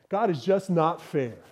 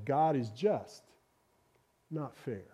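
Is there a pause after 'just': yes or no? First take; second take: no; yes. First: It runs on with no pause after just. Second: There is a pause after just, before not fair.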